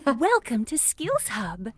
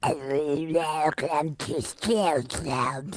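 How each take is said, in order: First: It is said in a princess voice. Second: It is said in a beast voice.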